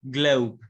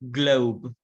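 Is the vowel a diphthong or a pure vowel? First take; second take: diphthong; diphthong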